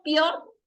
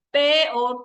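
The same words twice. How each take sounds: First: "peor" with a diphthong, pior; one single sound. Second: Slow "peor", e and o split apart; two voice beats. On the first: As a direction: say "peor" as one syllable, pyor. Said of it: "es un solo sonido". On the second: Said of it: "tiene dos golpes de voz". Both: Shown as a demonstration.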